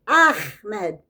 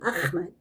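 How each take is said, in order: First: The H is a strong, throaty breath. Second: The H is a plain, light breath. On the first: The speaker calls it right. "You have to say it like a big H" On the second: The speaker calls it wrong. "she continually calls him Ahmed"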